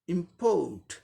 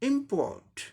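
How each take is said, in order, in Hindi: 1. Stress दूसरे syllable पर है। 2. स्ट्रेस पहले सिलेबल पर है। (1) "सेकंड सिलेबल को अब जोर देके बोलना पड़ेगा।" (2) "इसे पहले सिलेबल को जोर देते हुए बोलना है।"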